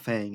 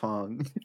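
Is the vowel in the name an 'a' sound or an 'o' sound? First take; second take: a sound; o sound. First: The vowel is an 'a' sound, as in 'cat'. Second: The vowel is an 'o' sound, as in 'long'. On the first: The speaker calls it wrong. "It's not Fang" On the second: The speaker calls it right. "it's Fong"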